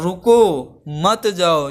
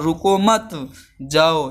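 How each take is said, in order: First: There is a pause after the first word. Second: There is a pause after the second word.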